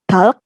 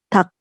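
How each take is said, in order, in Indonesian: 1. Ada bunyi L sebelum K di akhir. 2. Hanya bunyi K yang mengakhiri kata. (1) "Jadi bacanya bukan talk" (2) "tapi tak"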